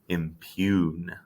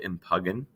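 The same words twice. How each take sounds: First: The word is pronounced differently from its spelling. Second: The word is pronounced the way it is spelled. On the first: The speaker calls it right. "you pronounce it impugn" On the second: The speaker calls it wrong. "you don't pronounce it impugn"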